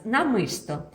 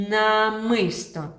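First: Said in the usual way. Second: Slow, louder намисто with the н drawn out; teacher stretching намисто for children; stretched word. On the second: Shown as a demonstration. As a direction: stretch намисто so the first н rings. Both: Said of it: "Вимовляємо н".

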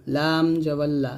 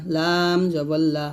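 No difference in how they are said.

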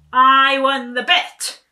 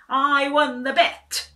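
First: Even louder, slower victory cry; triumphant shout. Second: Loud, high, slow victory cry; triumphant shout. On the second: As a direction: crow it out in triumph. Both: A narrator's reading. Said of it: "he shouted".

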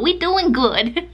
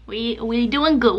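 First: High playful sing-song. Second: Said in the usual way. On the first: Pretend. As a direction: bounce it up playfully. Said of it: "sing-song repeat". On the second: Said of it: "repeated phrase".

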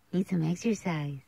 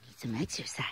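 First: Said in the usual way. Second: Soft unvoiced aside; whisper. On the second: Real, not acted. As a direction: whisper it under your breath. Whispered aside about the dog.

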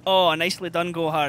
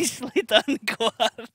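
First: Put-on Scottish accent. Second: Laughing through the words, own accent. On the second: Real, not acted. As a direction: drop the Scottish accent and laugh it out. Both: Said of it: "That's almost as good as my Scottish accent".

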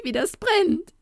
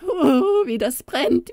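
First: Even higher goblin wail on brennt; wild cry of pain. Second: High goblin wailing in pain; wild cry of pain. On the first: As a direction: shriek brennt at the top of the voice. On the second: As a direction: cry out as it burns, pitched up. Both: Acted. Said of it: "schrie er wild".

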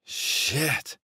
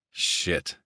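First: Long, high slurred curse; drunken slur. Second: Said in the usual way. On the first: A narrator's reading. Younger brother spilling his scotch, drunkenly slurred. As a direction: stretch it out tipsily, pitched up. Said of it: "he slurred".

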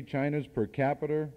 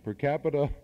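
First: New England accent, "capita" ending in an r sound like "capiter". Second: Said in the usual way. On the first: Real, not acted. Speaker owning up to his New England accent, saying "capita" as "capiter". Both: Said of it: "that's my New England accent".

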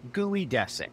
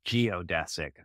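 First: Geodesic said "gooey-DESS-ick"; mispronounced geodesic. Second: Geodesic said "jee-oh-DESS-ick"; correct pronunciation. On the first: Pete after spelling it out, geodesic mispronounced as gooey-dessic. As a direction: say gooey in place of geo in geodesic. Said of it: "Pete's incorrect pronunciation of geodesic". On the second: Pete realising his mistake, geodesic pronounced jee-oh-dessic. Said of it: "not every G E O is pronounced gooey". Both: Acted.

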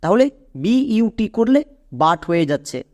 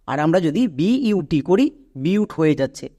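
First: "B ইউ T" read as "বাট" with a short a sound; teacher shows "B ইউ T" giving "বাট"; reading without silent e. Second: "বিউট" said with a long you sound; teacher contrasts the correct "বিউট" reading; reading with silent e. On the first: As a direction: spell B ইউ T, then say it as "বাট". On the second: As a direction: spell it out, then land on "বিউট" with the long u. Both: Shown as a demonstration. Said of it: "এবার হচ্ছে সঠিক বানান।".

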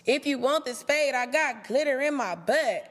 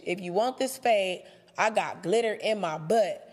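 First: Mocking comeback. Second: Said in the usual way. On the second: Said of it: "That's what you say".

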